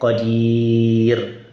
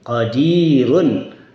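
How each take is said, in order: First: The word ends on a bare 'r', without 'un'. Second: The word ends with the nasal 'un' ending. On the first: The reader stops at this word. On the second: The reader continues without stopping.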